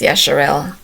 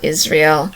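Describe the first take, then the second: First: The name begins with a 'ya' sound. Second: The name begins with an 'iz' sound. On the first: The speaker calls it right. "the correct pronunciation is Yasharel" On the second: The speaker calls it wrong. "not Israel"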